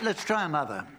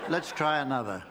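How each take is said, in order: First: It is said with lots of enthusiasm. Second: It is said with little enthusiasm.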